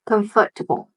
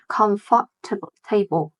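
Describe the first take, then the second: First: The ending is reduced to a short 'tbl'. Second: The ending is said as a full 'table'. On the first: The speaker calls it right. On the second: The speaker calls it wrong.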